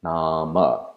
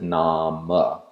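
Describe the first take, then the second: First: The word ends in a short vowel sound. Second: The word ends in a short vowel sound.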